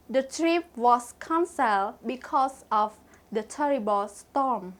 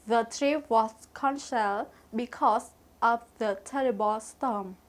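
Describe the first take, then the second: No difference in how they are said.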